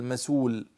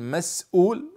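First: "مسول" as ma-suul, with no glottal stop; hamza dropped. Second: "مسؤول" as mas-'uul, glottal stop after the s; pronounced with hamza. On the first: Teacher showing how others say it, hamza dropped. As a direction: slide from the s into the long u of "مسول". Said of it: "وبعضهم يحذف الهمزة فيقول". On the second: Teacher showing how some people say it, with hamza. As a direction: break "مسؤول" with a catch before the u. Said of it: "وبعضهم يحذف الهمزة". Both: Shown as a demonstration.

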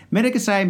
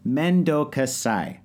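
First: Said in the usual way. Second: "Mendo gasai" drawn out very slowly; slow Japanese demo. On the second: Shown as a demonstration. Teaching the phrase to a podcast friend, slowly savoured. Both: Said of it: "the best thing to say".

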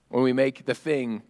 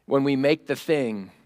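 No difference in how they are said.

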